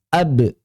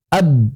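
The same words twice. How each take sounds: First: The lips part again right after closing. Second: The lips stay pressed together at the end. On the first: The speaker calls it right. "langsung dilepas" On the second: The speaker calls it wrong.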